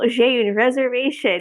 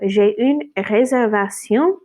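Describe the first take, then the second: First: It is said with an American accent. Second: It is said with a French accent. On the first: The speaker calls it wrong. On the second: The speaker calls it right.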